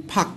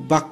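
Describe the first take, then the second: First: ফাক opened with a puffed ph; aspirated initial sound. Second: বাক opened with a voiced b; textbook b sound. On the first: Teacher reads out the Korean example, ফাক with puffed ph. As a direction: say ফাক with an airy ph, not a b. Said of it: "sorry, এটা বাক উচ্চারণ করেছে". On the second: Teacher shows the book's spelling, বাক with a voiced b. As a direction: say বাক with b in place of puffed ph. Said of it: "এটা বাক উচ্চারণ করেছে". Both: Shown as a demonstration.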